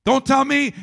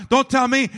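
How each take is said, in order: Both takes have the same delivery.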